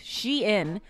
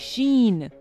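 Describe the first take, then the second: First: The name is said like 'she-in'. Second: The name is said like 'sheen'. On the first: The speaker calls it right. "it's pronounced Shein" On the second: The speaker calls it wrong. "a lot of people say Sheen"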